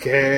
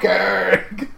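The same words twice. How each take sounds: First: It is said in his normal voice. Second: It is said in a Cartman impression.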